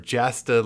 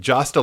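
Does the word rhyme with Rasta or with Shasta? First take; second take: Shasta; Rasta. First: The word rhymes with Shasta. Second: The word rhymes with Rasta. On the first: "like Shasta" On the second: "like Rasta"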